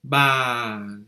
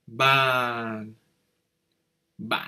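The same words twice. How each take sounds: First: Ban falling, meaning table; long falling tone. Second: Ban cut short with a quick chute; short drop tone. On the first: Teacher contrasts the falling tone of ban. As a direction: let ban fall slowly. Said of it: "Ton qui descend". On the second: Teacher contrasts the short heavy tone of ban. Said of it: "Et là, c'est". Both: Shown as a demonstration.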